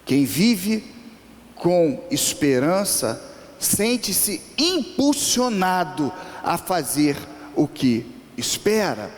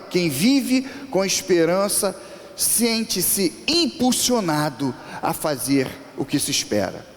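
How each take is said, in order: First: It is said more slowly. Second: It is said at normal speed.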